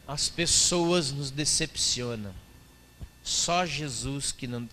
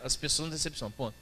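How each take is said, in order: First: Slow, syrupy pious sing-song; pious churchy voice. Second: Said in the usual way. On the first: Retold or imitated. Quoting a religious Facebook post, slow and pious. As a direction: read it like a sanctimonious post. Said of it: "cheio do espírito religioso". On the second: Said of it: "Aí não".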